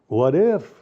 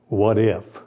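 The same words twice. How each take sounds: First: It is said in an open, curious tone. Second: It is said in a suspicious, distrustful tone. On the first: The speaker is open to new possibilities. The speaker calls it right. "That's an open mind" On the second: The speaker doubts and questions everything. The speaker calls it wrong. "It's paranoia"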